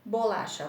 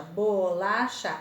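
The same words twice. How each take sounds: First: Said in the usual way. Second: BO - LA - CHA, slow, even beats; teacher sounding out BO-LA-CHA; split into syllables. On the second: Shown as a demonstration. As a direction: say bolacha in three slow pieces, BO, LA, CHA. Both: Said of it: "Tem três pedacinhos".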